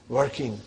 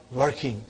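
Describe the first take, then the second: No difference in how they are said.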